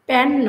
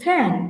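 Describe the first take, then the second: First: The first p has no puff of breath. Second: The first p has a strong puff of breath. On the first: The speaker calls it wrong. "প্যান নয়" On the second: The speaker calls it right. "ফ্যান প্যান নয় ফ্যান"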